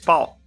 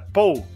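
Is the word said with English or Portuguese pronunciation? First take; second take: English; Portuguese. First: The word has an English pronunciation. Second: The word has a Portuguese pronunciation. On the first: "só que com a pronúncia em inglês" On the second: "Era pau"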